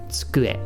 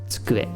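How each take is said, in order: First: The vowel after ts is shortened, nearly dropped. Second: The vowel after ts is shortened, nearly dropped.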